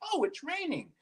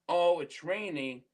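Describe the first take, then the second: First: It sounds happy and upbeat. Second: It sounds glum and unenthusiastic.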